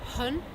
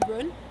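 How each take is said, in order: First: The word begins with an H sound. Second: The word begins with an English R sound. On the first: The speaker calls it wrong. "pronouncing um, the H sound um, with a word that begins with R" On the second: The speaker calls it right. "instead of saying run"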